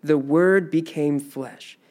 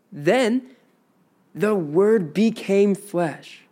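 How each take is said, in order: First: Said in the usual way. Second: Slow and lifted, Then held apart; emphatic. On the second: Shown as a demonstration. Teacher driving home the central line, slow and emphatic. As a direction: land "the Word became flesh" slowly, weighting became. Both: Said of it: "This is the emphasis".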